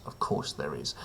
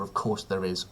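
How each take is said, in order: First: "Of course there is" dropped much lower and much softer, flat and weary; deadpan mutter. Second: "Of course there is" with a lightly lowered, wry tone; dry sarcasm. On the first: Host to viewers, repeating it as a much lower, softer deadpan mutter. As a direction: mutter it under your breath, utterly unsurprised. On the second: Host to viewers about the topless leader photo, dryly wry. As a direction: say it with a knowing sigh. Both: Acted. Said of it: "of course there's a picture of him topless".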